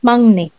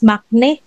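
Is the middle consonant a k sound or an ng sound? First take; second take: ng sound; k sound. First: The middle consonant is a nasal ng sound. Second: The middle consonant is a hard k sound. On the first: The speaker calls it right. "but it's mangne" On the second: The speaker calls it wrong. "it's not pronounced as makne"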